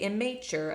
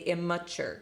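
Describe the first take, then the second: First: The unstressed vowel is a full, unreduced vowel. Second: The unstressed vowel is reduced to a schwa. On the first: The speaker calls it wrong. "I don't say immature" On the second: The speaker calls it right. "I say immature because it's flexing to the schwa"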